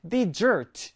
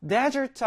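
First: "desert" with the stress on the end, de-SERT; weak first syllable, punch the back of "desert"; stress on second syllable. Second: "desert" with the first syllable stressed, DE-sert. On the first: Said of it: "뒤에 강세가 있어요". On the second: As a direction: hit the front of "desert", leave the second syllable weak. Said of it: "앞에 강세가 있는데요". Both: Shown as a demonstration.

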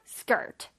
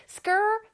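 First: "skirt" finished with a crisp T; 완전한 단어 발음. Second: "skirt" without the final T, just "skrr"; higher, trendy "skrr" for "skirt". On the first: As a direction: close "skirt" on its final T. ("skirt" 끝에 T까지) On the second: ("skirt"를 끝소리 없이 "스껄") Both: Shown as a demonstration. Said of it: "그 발음이에요".

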